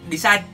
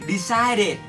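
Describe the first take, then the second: First: The ending is dropped, leaving two syllables. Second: The ending is said clearly as a third syllable. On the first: The speaker calls it wrong. "We may not read it decide" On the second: The speaker calls it right. "we must read it clearly"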